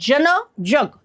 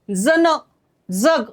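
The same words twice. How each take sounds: First: The j sounds have no y-like glide. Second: The j sounds carry a y-like glide. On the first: The speaker calls it right. "नाही" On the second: The speaker calls it wrong. "इ असल्यासारखं वाटतं. असं आहे का ते?"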